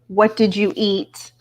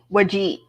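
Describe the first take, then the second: First: Each word is said fully and separately. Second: The words are squashed together into fewer syllables. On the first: This is the usual way of saying it. "instead of saying" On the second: This is how rural speakers say it. "they would say"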